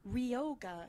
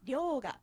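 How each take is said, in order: First: It starts with a plain English R sound. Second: It starts with a sound between L and R. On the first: The speaker calls it wrong. "it's not ryoga" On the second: The speaker calls it right. "It's halfway in between"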